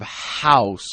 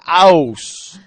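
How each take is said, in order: First: The word starts with a breathy h sound. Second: The word starts without an h sound. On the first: The speaker calls it right. "instead of house" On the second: The speaker calls it wrong. "French people have a really hard time in English because they don't pronounce H's"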